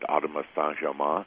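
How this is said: The name is said with a French pronunciation.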